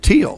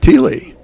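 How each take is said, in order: First: The name is said with one syllable. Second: The name is said with two syllables. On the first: The speaker calls it right. "they pronounce it teal" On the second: The speaker calls it wrong. "I'm pronouncing it Teely"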